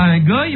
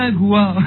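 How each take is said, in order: First: The vowel sounds like 'oy'. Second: The vowel sounds like 'wa'. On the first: The speaker calls it wrong. "on ne dit pas un goy" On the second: The speaker calls it right. "on dit un goua"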